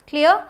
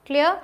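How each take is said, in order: The two takes are said the same way.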